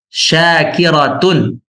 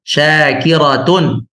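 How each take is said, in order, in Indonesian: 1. Kata itu berakhir dengan suku kata 'tun' yang bersuara. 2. Kata itu berakhir dengan suku kata 'tun' yang bersuara.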